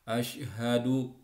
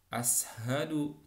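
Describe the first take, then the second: First: The consonant after the first vowel is 'sh'. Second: The consonant after the first vowel is 's'. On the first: The speaker calls it right. "shinnya shin besar" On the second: The speaker calls it wrong.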